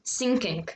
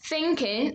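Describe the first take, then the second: First: It begins with an s sound. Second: It begins with a th sound. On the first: The speaker calls it wrong. "they would say sinking" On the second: The speaker calls it right. "Instead of saying thinking"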